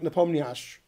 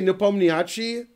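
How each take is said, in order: First: The name ends without its final syllable. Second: The name ends with a full final syllable. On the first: The speaker calls it right. "you actually don't say the end. It's not pronounced" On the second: The speaker calls it wrong. "in America we say Nepomniachtchi"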